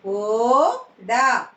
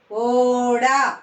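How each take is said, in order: First: "ఓడ" split, long rising ఓ, then డ; "ఓడ" in two separate syllables. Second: Said in the usual way. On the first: Shown as a demonstration. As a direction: sound out "ఓడ" with a gap. Teacher sounds out syllables.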